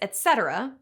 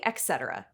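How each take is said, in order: First: The first word begins with an 'et' sound. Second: The first word begins with an 'eks' sound. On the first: The speaker calls it right. "It comes from the Latin phrase" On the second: The speaker calls it wrong. "There's no X in et cetera, but that hasn't stopped people from saying"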